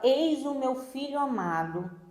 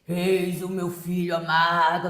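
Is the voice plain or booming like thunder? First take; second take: plain; booming. First: It is said in a plain narrating voice. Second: It is said in a booming, thunderous voice.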